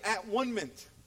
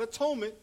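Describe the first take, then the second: First: It is split as at, one, ment. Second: It is said as a-tone-ment. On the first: "we're going to pronounce it at-one-ment" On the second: "that is a way you can pronounce it"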